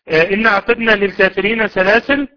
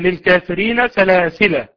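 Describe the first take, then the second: First: The last word ends on a silent consonant. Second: The last word ends on a long vowel. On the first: "الوقف عليها بسكون اللام" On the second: "من أثبتوا الألف"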